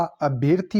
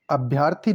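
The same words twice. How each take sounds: First: Said in the usual way. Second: अभ्यर्थी with a long yaa; mispronounced अभ्यर्थी. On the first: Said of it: "होता है शुद्ध शब्द". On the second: Shown as a demonstration. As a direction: say अभ्यर्थी as "abhyaar-thi". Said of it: "अभ्यर्थी नहीं होता".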